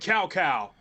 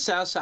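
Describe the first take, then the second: First: The name starts with a k sound. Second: The name starts with a ts sound. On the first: The speaker calls it wrong. "notoriously got Sao Sao wrong" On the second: The speaker calls it right. "it's pronounced with T S"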